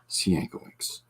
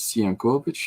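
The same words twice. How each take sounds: First: The name is pronounced the English way. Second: The name is pronounced the Polish way. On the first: This is how the bearer himself says it. "he pronounces it by the anglicized Sienkiewicz" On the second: This is how a Polish reader would say it. "You might read it as Sienkiewicz if you are Polish"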